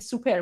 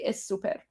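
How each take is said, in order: First: The word starts directly with the s sound. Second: An extra e vowel comes before the s. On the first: The speaker calls it right. "We just say super" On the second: The speaker calls it wrong. "We don't say es super"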